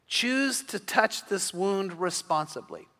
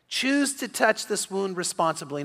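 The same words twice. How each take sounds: First: Slow, quiet delivery. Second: Said in the usual way. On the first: Shown as a demonstration. Pastor driving home a point to wounded sons, slow and soft. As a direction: choose drawn out slowly, softer. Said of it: "said twice, slow then normal". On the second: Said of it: "repeat of the key line".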